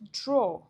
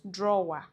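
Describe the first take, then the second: First: It sounds like 'draw', with no ending 'er'. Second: It sounds like 'drawer', with an ending 'er'. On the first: The speaker calls it right. "This word is pronounced draw" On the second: The speaker calls it wrong. "not drawer. No"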